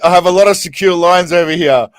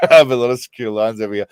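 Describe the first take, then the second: First: Said in the usual way. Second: Rereading the line while laughing; can't get the words out for laughing; cracking up mid-line; laughing through it. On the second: Real, not acted.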